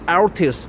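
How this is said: It is said the English way, ending in s. "not Altis, not this kind of pronunciation"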